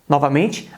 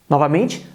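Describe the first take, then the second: No difference in how they are said.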